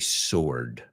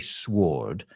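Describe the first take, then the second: First: The W sound is silent after the S. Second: The W sound is pronounced after the S. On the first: The speaker calls it right. "We would say sword. The W is silent" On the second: The speaker calls it wrong. "I've heard people say sword, but it sounds really weird to me"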